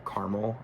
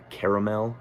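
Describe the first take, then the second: First: "[name]" squeezed to two syllables, CAR-mul; two-syllable pronunciation. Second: "[name]" in three syllables, KAIR-uh-mel; three-syllable pronunciation. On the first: Reviewer giving own way of saying the song title, two-syllable "[name]" as CAR-mul. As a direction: drop the middle vowel of "[name]", opening on "car". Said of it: "is how I would pronounce it". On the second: Reviewer naming the song as the singer pronounces it, three-syllable "[name]". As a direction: say "[name]" with a full middle "uh" and a clear "mel". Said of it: "he pronounces it [name]".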